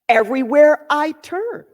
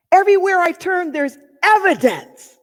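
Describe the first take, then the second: First: "Everywhere I turn" with a rising end; shifted emphasis. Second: "Everywhere" higher and quick, "evidence" stressed; emphasis on everywhere. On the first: Trying another emphasis for listeners, rising at the end. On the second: Demonstrating emphasis to listeners, higher and faster. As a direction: rush "Everywhere" up high, then land on "evidence". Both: Shown as a demonstration. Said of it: "shift the emphasis on each one".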